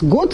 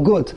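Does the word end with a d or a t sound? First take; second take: d; t. First: The word ends with a d sound. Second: The word ends with a t sound. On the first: "You say good with a D" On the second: "or you say with a test"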